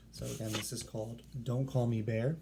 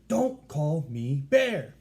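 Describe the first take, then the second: First: Said in the usual way. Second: Loud, slow, higher exclamation; loud all caps. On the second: Shown as a demonstration. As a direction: boom out the title like it's in capital letters. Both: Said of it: "we're really going to say it like".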